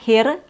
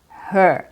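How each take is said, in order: First: The vowel sounds like ear instead. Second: The vowel is a clear er sound. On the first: The speaker calls it wrong. "So it's not here" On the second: The speaker calls it right. "the accurate way is her"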